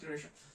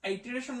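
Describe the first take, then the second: First: The word begins with a short 'ih' vowel. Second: The word begins with an 'eye' vowel. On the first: The speaker calls it right. "উচ্চারণ হবে ইটারেশন" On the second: The speaker calls it wrong. "Sorry আইটারেশন হবে না"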